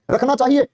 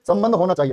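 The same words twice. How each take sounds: First: रखना चाहिए asked with a doubtful rising tune; wrong form questioned. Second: संबंध होना चाहिए settled with a firm falling close; correct form confirmed. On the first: Teacher queries the wrong wording to students, doubtful rise. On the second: Teacher confirms the corrected wording for the class, firm fall. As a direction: state संबंध होना चाहिए as the final answer. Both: Shown as a demonstration. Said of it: "रखना चाहिए में गलती है".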